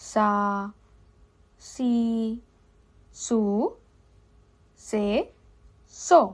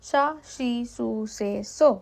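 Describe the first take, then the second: First: The syllables are said slowly, one by one. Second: The syllables are said quickly, one after another. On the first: "প্রথমে ধীরে ধীরে বলবো" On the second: "এবার একটু দ্রুত বলবো"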